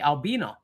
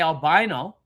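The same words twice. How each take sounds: First: It is pronounced the British way. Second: It is pronounced the Australian way. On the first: "in England and the U K, they say albino" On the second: "we say albino"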